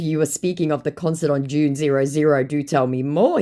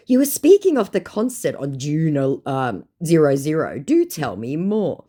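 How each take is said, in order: First: Said in the usual way. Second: Prim mock formal. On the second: Reading her own message, mock formal.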